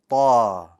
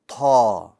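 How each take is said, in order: First: The consonant is released with no puff of air. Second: The consonant is released with a puff of air. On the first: The speaker calls it right. "The letter Ta also has no air" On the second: The speaker calls it wrong. "That's an incorrect pronunciation"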